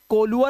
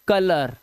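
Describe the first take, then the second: First: The first vowel is an 'oh' sound. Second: The first vowel is an 'uh' sound. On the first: The speaker calls it wrong. "कोलुअर ओलुअर पर नहीं पढ़ना है" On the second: The speaker calls it right. "आ की आवाज"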